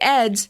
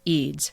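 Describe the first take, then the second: First: The vowel is short, rhyming with beds. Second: The vowel is long, rhyming with beads. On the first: The speaker calls it wrong. "It looks like Eds" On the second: The speaker calls it right. "it's actually pronounced Eads"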